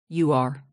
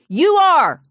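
First: It is said in a tiny, quiet voice. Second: It is said loudly, like a scream.

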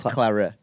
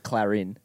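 First: No n sound follows the first syllables. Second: An n sound follows the first syllables. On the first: The speaker calls it right. "It's Clara" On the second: The speaker calls it wrong. "it's not Clarin"

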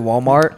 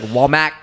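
First: The word has a plain standard English pronunciation. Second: The word has an unusual foreign-accented pronunciation. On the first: "instead of Walmart" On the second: "She says like Walmart"

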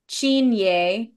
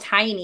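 First: The name begins with a 'ch' sound. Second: The name begins with a 't' sound. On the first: This is the original Gaelic pronunciation. The speaker calls it right. "rooted in true Scottish Gaelic that have an actual pronunciation" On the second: This is how others commonly say it. The speaker calls it wrong. "the one that they call Tiny"

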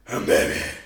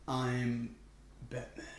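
First: The voice is more raspy. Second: The voice is less raspy.

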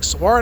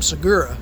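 First: The name sounds like the park name Saguaro. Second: The name is said in its usual Segura form. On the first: The speaker calls it right. "You should pronounce it like the national park" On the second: The speaker calls it wrong. "It's not Tom Segura"

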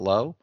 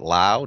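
First: The vowel sounds like the one in go. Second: The vowel sounds like the one in cow. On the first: The speaker calls it wrong. "not low" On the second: The speaker calls it right. "Lau, not low"

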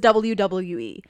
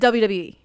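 First: Each letter is pronounced clearly and separately. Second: The letters are slurred together into one sound. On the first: "He never says WWE" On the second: "It's one letter, really"

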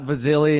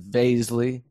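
First: The name does not rhyme with paisley. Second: The name rhymes with paisley. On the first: The speaker calls it wrong. "Not Vaszily" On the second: The speaker calls it right. "it's Vaszily"

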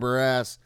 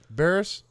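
First: The name sounds like 'bare ass'. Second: The name sounds like 'Barris'. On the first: The speaker calls it wrong. "not bare ass" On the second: The speaker calls it right. "that it was Barris"

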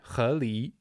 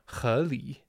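First: Both syllables carry a rising second tone. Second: The two syllables do not both rise. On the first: The speaker calls it right. "two second tones" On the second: The speaker calls it wrong. "I said that wrong the first time"

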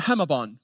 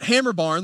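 First: Said in an Australian accent, r sounds dropped. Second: Said in a rural American Southern accent, r sounds kept. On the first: "They're from Australia, so they go to Hemabon" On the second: "like a redneck from Boone like me does"

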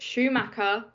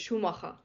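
First: The name is said with an English-style pronunciation. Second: The name is said with a German-style pronunciation. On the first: The speaker calls it wrong. "you don't pronounce it Schumacher" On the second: The speaker calls it right. "it's Schumacher"

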